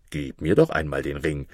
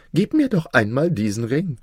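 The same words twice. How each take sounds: First: Requesting king. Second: Higher-pitched, wheedling vizier; coaxing vizier. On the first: A narrator's reading. King asks vizier for the ring, requesting. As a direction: ask for it in a low kingly voice. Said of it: "bat der König". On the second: Acted. Vizier wants drunken Maruf's ring, coaxing. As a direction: ask for it in a raised character voice.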